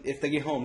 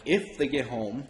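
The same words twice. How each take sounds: First: Said in the usual way. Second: "If" punched, with a laugh in it; stress on If. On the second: Retold or imitated. Answering cousin about absent parents, stress on If. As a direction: lean hard on "If", casting doubt. Throws cousin's words back.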